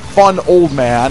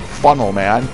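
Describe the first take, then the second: First: The phrase is said at a normal speed. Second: The phrase is said quickly, run together.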